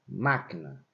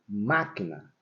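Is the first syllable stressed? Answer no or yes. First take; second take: yes; yes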